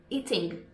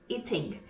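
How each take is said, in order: The two takes are said the same way.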